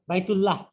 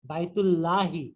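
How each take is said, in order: First: বাইতুল্লাহ clipped with no final vowel; the casual বাইতুল্লাহ without i; common short form. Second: বাইতুল্লাহি slow with the final i sounded clearly; proper genitive বাইতুল্লাহি; correct case ending. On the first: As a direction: end বাইতুল্লাহ flat on the h, the everyday way. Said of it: "আসল উচ্চারণটা কি হচ্ছে?". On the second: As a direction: add the i ending to বাইতুল্লাহি, slowly. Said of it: "মুদাফ ইলাইহি করব". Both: Shown as a demonstration.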